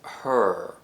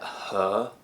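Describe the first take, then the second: First: The vowel is said with an r sound. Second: The vowel is said without any r sound. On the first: "American English" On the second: "British English"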